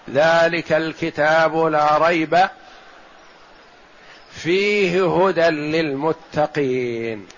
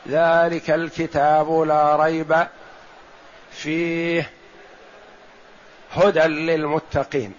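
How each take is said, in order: First: A single pause comes after la rayb only. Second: Pauses come after both la rayb and fihi. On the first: "وقف آخر" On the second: "لا يصح أن تقول في القراءة"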